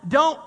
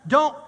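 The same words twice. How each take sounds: The two takes are said the same way.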